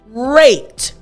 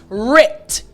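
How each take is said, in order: First: The vowel is a long 'ay' sound. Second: The vowel is a short 'i' sound. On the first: "normally when you have R A T E, the sound would be rate" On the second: "Remember the it"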